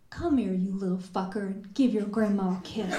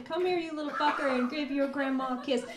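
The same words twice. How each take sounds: First: Put-on fond, quick grandmotherly call to a child; affectionate grandma. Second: Higher, quicker second take of grandma's call; retried grandma line. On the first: Grandma calling a toddler over, affectionately. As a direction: tease the child into a kiss. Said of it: "term of endearment". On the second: Shown as a demonstration. Poet retrying grandma's line for the audience, lightly higher. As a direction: give it another go, fonder and lighter. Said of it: "We'll try that again".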